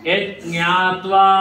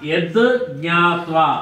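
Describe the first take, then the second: First: The d sound merges into jnatva. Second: The d sound is kept before jnatva. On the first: "యజ్ఞాత్వా అని కూడా అనొచ్చు" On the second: "ఇక్కడ యద్ జ్ఞాత్వా అని అనొచ్చు"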